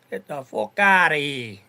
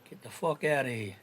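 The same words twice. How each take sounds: First: Loud, drawn-out mock Irish accent; Brooklyn's Irish accent. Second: Said in the usual way. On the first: Repeating the dismissal as Brooklyn would, Irish accent. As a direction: belt it out slowly in an imitated Irish accent. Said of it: "as Brooklyn would say in his Irish accent".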